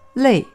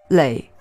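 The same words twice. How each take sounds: First: The tone falls sharply from high to low. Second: The tone dips low, then rises. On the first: It means tired from hard work. "读4声累" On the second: It means repeated many times, as in accumulating. "读3声累时"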